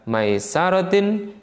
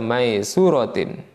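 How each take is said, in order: First: The vowel after the s is a. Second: The vowel after the s is u. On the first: "Bidak bi fathhi sini dengan fathahnya sin" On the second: "wa dhammiha dan dhammahnya sin"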